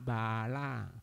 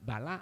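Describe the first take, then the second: First: The first vowel is held long. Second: The first vowel is short. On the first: It means foolish or bad. The speaker calls it right. "kalau A dibaca A bala" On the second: It means strength. The speaker calls it wrong. "Jangan baca bala"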